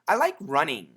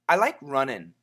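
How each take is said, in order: First: The ending is a full 'ing' sound. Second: The ending is a shorter 'in' sound. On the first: "The first pronunciation is ing, which is perfect" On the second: "if we say it a little bit faster, it sounds like in"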